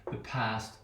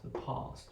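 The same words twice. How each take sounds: First: "past" with a flat short a as in "cat". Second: "past" with a long open ah, breathed softly; Queen's English "past"; broad A. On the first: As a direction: say "past" the American way. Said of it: "the short value". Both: Shown as a demonstration.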